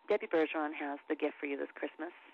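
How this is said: It is delivered flat and understated, thrown away. "Flat reads, this is where you're just kind of throwing it away"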